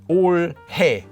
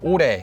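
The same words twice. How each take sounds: First: The h sound in the middle is clearly pronounced. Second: The h sound in the middle is dropped. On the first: The speaker calls it wrong. "not as 올해, which would sound really awkward" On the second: The speaker calls it right. "is just pronounced as 올해"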